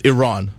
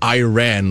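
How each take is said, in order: First: It does not sound like the phrase 'I ran'. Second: It sounds like the English phrase 'I ran'. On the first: The speaker calls it right. "What is the proper pronunciation of Iran? It's Iran" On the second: The speaker calls it wrong. "where did you run to?"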